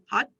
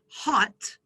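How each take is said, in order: First: The final t is not aspirated. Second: The final t is released with aspiration. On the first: "a Thai speaker would not aspirate that final consonant in the same way" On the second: "the word in English would be hot"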